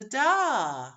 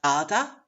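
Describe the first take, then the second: First: "da" drawn out after a weak lead-in; second-syllable stress. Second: "gada" with a loud first syllable; first-syllable stress. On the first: Teacher offering the alternative, stress on the end. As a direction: swell on a long, falling "da". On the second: Teacher asking which syllable, stress on the first. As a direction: lean on "ga", clip nothing but weaken "da". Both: Shown as a demonstration. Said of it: "Is it the first syllable".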